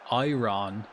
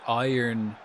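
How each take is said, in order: No difference in how they are said.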